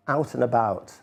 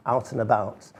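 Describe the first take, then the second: No difference in how they are said.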